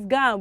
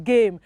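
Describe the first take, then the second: First: The vowel is not the long 'ay' sound. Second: The vowel is the long 'ay' sound. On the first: The speaker calls it wrong. "we don't pronounce it as game" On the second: The speaker calls it right. "We pronounce it as what? As game. And so the letter hey here carries the sound"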